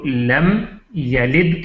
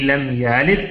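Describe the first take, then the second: First: The first vowel of yalid is short. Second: The first vowel of yalid is drawn long. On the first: The speaker calls it right. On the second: The speaker calls it wrong.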